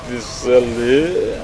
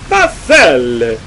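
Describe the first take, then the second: First: The name is said in a French accent. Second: The name is said in an Italian accent.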